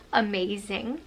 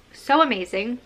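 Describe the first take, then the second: First: Said in the usual way. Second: So amazing with So lifted and louder; stress on So. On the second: Shown as a demonstration. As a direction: lean into So, then amazing.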